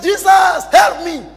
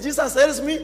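First: Loud, high desperate plea; preacher imitating a frantic shout; acted cry for help. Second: Said in the usual way. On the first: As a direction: yell out to be rescued. Drunk man cries out for rescue.

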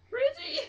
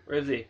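First: Much higher, startled squeak; shrill frightened squeak of a question; panicked squeak. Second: Said in the usual way. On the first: Real, not acted. Panicked search, voice jumps up.

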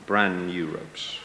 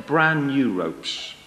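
First: "brand new ropes" low, soft and slow; lowered repeat. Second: "brand new ropes" drawn out slowly; deliberate emphasis. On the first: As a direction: drop "brand new ropes" to a deep, quiet confirmation. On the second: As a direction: linger on "brand" in a slow, full voice. Samson feeds another false secret. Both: Acted.

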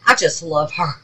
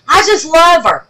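First: Said in the usual way. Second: Higher, louder, gushing with delight; squealing fan love. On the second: Shown as a demonstration. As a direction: burst out adoring her.

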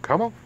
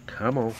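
First: Much higher squeaky come on to the dog; high coaxing call. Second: Said in the usual way. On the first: Real, not acted. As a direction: sing it up high to coax the puppy.

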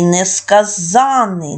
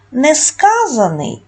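First: Несказаний as несказАнний, long stressed ЗАН; несказаний, stress on the third syllable, drawn out; stress on suffix. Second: Несказаний with high stressed КА; Несказаний, stress on the second syllable, drawn out; stress off suffix. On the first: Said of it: "наголос падає". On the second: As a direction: slowly say Несказаний, leaning on -ка-. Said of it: "наголос на суфікс не падає". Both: Shown as a demonstration.

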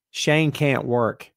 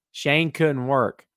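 First: Very slow correction with "can't" spaced out; stress on CAN'T. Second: Slow, deliberate weight on "couldn't"; stress on COULDN'T. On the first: Host corrects to present tense, slowly stressing "can't". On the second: Host dissects his own statement, stressing "couldn't". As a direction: spell it out slowly, leaning on "couldn't". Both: Shown as a demonstration. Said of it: "That's past tense".

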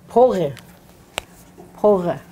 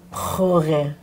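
First: Pore with stress on the first syllable, po-re; pore, clear po-re. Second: Pore said the wrong way, stress shifted; pore, the wrong stressed reading. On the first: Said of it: "if I use po in a different way". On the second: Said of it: "I can't say". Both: Shown as a demonstration.

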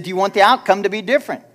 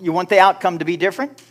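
First: Pressing the question louder and faster; a preacher repeating himself with more force. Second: Said in the usual way. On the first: Shown as a demonstration. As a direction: push it at the congregation. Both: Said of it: "I said".

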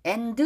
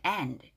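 First: "and" with an added vowel, "aen-du"; wrong pronunciation. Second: "and" with the final d dropped softly; weak d pronunciation. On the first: Teacher showing learners the mistake, "and" as "aen-du". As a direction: give "and" a full second syllable. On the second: Teacher correcting learners, soft "and" with weak d. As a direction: let "and" end on the n, softer. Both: Shown as a demonstration. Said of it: "and 아니에요".

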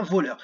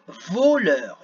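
First: Said in the usual way. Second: VOLEUR stretched slowly as "vo-leur"; drawn-out syllables. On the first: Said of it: "un peu plus difficile". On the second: Shown as a demonstration. Teacher giving children a harder word, "voleur" slowly syllable by syllable. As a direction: sound out "voleur", lengthening both syllables. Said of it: "dans la première syllabe".

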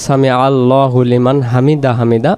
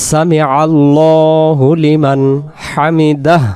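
First: হামিদা ending on a bare vowel, no final হ; mispronunciation. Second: Slow recitation with long-held vowels; prayer recitation. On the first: Teacher showing how the letter gets lost, mispronounced. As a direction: run it together and drop the last হ of হামিদা. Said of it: "হা অক্ষরটা বাদ চলে যাচ্ছে". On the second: Teacher showing what follows ruku, measured prayer recitation. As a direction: recite it slowly, sounding the final হ. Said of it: "আমরা কি করব?". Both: Shown as a demonstration.

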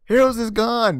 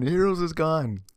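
First: Heroes is gone, said high and loud; repeating it for emphasis; loud exclaim. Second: Said in the usual way. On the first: Real, not acted.

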